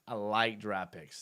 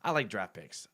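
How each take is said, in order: First: I like draft picks, slowed right down and leaned on; slow emphatic repeat. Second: Said in the usual way. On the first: Shown as a demonstration. Host repeating to chat, slow and emphatic. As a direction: drag "like" out slowly to drive it home.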